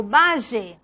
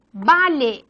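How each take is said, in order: First: "valle" with a buzzing zh, "vazhe". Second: "vale" with an ly in the middle, "valye". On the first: Teacher showing variants of double L, zh sound. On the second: Teacher showing variants of double L, ly sound. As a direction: say "vale" with L gliding into y. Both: Shown as a demonstration. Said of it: "la L o E".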